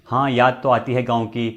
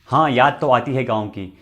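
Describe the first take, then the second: No difference in how they are said.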